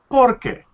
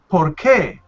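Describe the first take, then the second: First: The stress is on the first syllable. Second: The stress is on the second syllable. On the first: It means because. "What changes is the um, the emphasis of the word" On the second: It asks why. "we have an emphasis on that word"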